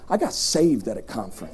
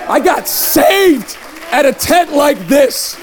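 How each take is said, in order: First: Low, soft confiding; hushed testimony. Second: High, slow proclamation; emphatic testimony. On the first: Preacher telling crowd how he got saved, hushed. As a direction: drop right down and share it quietly. Quiet take before emphatic repeat. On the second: Preacher declaring he was saved in a tent, emphatic. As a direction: proclaim it slowly, pitched up. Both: Real, not acted.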